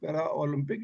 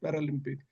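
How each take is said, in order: First: It is said as two separate words, para Olympic. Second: It is said as one blended word, Paralympic. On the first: The speaker calls it wrong. "It is not" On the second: The speaker calls it right. "It is पैरालंपिक"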